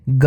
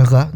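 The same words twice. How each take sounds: First: ग as a hard g stop; ordinary Hindi ग, no friction; plain ga. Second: ग as voiced back fricative ġa; Urdu ghain. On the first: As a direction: say the first ग as in "go". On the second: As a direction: Urdu ग़, held with friction. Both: Shown as a demonstration. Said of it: "ग और ग दोनों ही".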